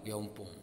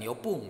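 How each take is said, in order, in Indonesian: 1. Bunyi n ada sebelum pun. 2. Tidak ada bunyi n sebelum pun. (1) "tapi yong yongpung" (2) "Bukan yopung"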